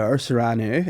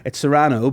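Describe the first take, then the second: First: "Serrano" with a final OO; "Serrano" said as suh-RAH-noo; Serrano ending in -oo. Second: "Serrano" with a clear final OH; "Serrano" said as suh-RAH-noh; Serrano ending in -oh. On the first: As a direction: end "Serrano" on an "oo" sound. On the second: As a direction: end "Serrano" on a round "oh" sound. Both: Shown as a demonstration. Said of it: "Is it Serrano or Serrano?".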